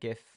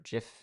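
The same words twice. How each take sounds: First: It begins with a hard g sound. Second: It begins with a soft j sound.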